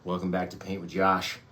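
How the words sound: It is said in a relaxed, casual voice. "Maybe we should just be more chill"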